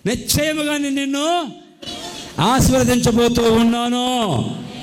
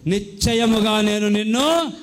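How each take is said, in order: First: Higher, building to a loud blessing; preacher swelling into the promise; rising proclamation. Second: Slow, weighty reading of God's promise; drawn-out scripture promise; slow solemn promise. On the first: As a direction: lift it up into a loud declaration. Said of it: "surely I will bless you". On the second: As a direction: let each word land slowly, as a vow. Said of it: "ఒక వాగ్దానం చేస్తున్నాడు". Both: Shown as a demonstration.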